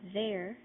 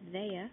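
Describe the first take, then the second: First: The final R sound is pronounced. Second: The final R sound is dropped.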